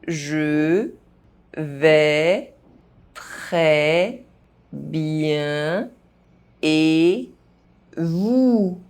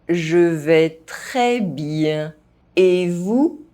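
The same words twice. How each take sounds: First: The phrase is spoken very slowly. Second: The phrase is spoken at normal pace. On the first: "very slowly" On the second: "at a normal pace"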